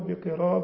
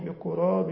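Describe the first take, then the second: First: The first vowel is an i sound. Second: The first vowel is a u sound. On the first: "والكسر" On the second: "الضم"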